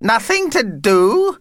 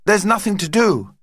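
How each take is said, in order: First: High, slow, incredulous echo rising at the end; indignant disbelief. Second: Said in the usual way. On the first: Acted. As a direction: throw it back as an affronted question. Vampire echoes it in disbelief.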